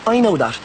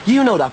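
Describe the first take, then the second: First: I pitched high, falling away on "that"; stress on I. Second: You punched high, then falling; stress on You. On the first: Innocent man to his doubting friend, exasperated stress on I. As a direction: lean on I, conceding the point. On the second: Innocent man to his one believer, exasperated stress on You. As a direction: hit You, setting the listener apart from everyone else. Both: Acted.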